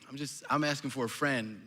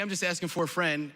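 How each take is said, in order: First: It is said hesitantly, with a halting restart. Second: It is said plainly and sincerely. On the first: There is no friend; the asker is asking for themselves. "or whether your tone of voice is like" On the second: There really is a friend asking. "whether your tone of voice is like"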